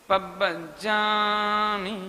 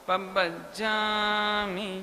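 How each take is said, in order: The two takes are said the same way.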